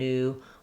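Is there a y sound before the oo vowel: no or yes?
no. It has a plain oo vowel without y. This is the American way.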